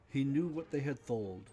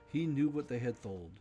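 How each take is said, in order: No difference in how they are said.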